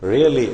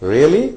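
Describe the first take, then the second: First: It is said with a firm assertive tune. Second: It is said with a questioning tune. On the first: Asserts that something is true. "அசர்டைன் assure பண்றோம்" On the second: Asks whether something is true. "Really அப்படின்னா question"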